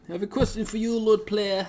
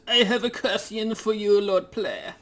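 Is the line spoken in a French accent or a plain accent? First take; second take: plain; French. First: It is spoken in the speaker's ordinary accent. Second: It is spoken in a put-on French accent. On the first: "I don't know how to do the voice just yet" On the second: "I'm gonna do like a try a, a French accent"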